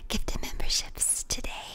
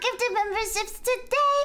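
First: It is said in the speaker's normal voice. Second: It is said in a high baby voice.

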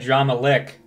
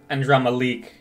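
First: The last word has a short 'i' vowel. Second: The last word has a long 'ee' vowel. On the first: This is how everyone else says it. The speaker calls it right. "They say Andrama Lick" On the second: This is how only one voice actor says it. The speaker calls it wrong. "no one else pronounces it Andrama Leak"

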